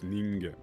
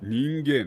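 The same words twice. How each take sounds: First: The word is said in a plain, natural way. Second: The word is said in a stiff, stilted way. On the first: The word is written in kanji, the ordinary form. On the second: The word is written in katakana, setting it apart.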